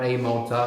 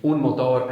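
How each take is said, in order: First: "motor" as English MOH-tuh; English pronunciation. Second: "motor" as Spanish mo-TOR; Spanish pronunciation. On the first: Teacher translating for the student, English pronunciation of "motor". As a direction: stress "motor" on the first syllable, no final R. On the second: Teacher showing the article, Spanish pronunciation of "motor". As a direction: put the stress of "motor" on the end and sound the R. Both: Shown as a demonstration. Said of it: "They all go with un or el".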